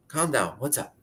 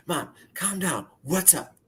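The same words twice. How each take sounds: First: Said in the usual way. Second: Higher, slow, gentle soothing of mom. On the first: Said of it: "she's crying on the other end". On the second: Retold or imitated. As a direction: ease her down slowly. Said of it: "I didn't say shut up, but I was like".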